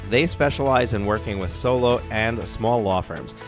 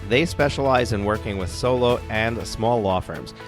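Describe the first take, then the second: No difference in how they are said.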